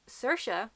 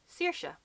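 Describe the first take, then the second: First: Saoirse as SUR-sha; actress's own pronunciation. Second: Saoirse as SEER-sha, drawn out; second Irish variant. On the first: Teaching regional versions of the name, SUR-sha. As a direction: say Saoirse with an UR vowel. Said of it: "the way that she personally pronounces it". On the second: Showing another regional version of the name, SEER-sha. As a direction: say Saoirse slowly with an EE vowel. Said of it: "three pronunciations of Saoirse". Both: Shown as a demonstration.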